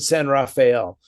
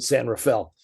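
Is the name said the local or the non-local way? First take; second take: non-local; local. First: The name is said the non-local way. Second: The name is said the local way. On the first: The speaker is not native to the area. "you pronounce it San Rafael" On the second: The speaker was born in the area. "everybody who's born here calls calls it San Rafael"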